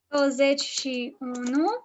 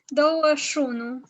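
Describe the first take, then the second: First: Every syllable of the number is said in full. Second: The number is said in a shortened, reduced form. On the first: This is the official form. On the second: This is how people casually say it.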